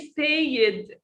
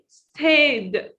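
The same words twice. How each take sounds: First: The ending is said as an extra syllable. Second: The ending is only a short d sound. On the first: The speaker calls it wrong. "we don't say stayed. This is very wrong" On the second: The speaker calls it right. "We say stayed"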